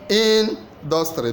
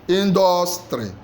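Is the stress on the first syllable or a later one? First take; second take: first; later. First: The stress is on the first syllable. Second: The stress is on a later syllable. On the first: The speaker calls it right. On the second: The speaker calls it wrong.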